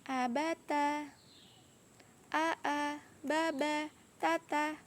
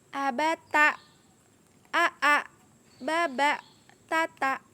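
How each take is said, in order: First: Each syllable ends smoothly without a catch. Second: Each syllable ends with an abrupt catch. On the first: The speaker calls it right. "bacaan yang benar ... mengalir saja" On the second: The speaker calls it wrong. "membacanya yang ada hentakan"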